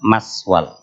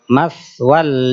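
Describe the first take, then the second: First: The consonant is a hissing s sound. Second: The consonant is a breathy th sound. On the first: The speaker calls it wrong. "bukan maswal" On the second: The speaker calls it right. "sa itu bukan suara S tapi angin"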